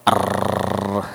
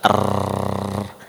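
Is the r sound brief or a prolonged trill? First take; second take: prolonged trill; prolonged trill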